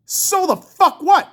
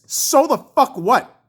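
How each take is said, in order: First: High, slow, punched words; escalating angry dismissal. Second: Angry dismissal. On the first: Fan rejecting excuses for the goalie, escalating angry dismissal. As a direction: raise the pitch and spit out each word slowly. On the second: First take of escalating retort. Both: Real, not acted.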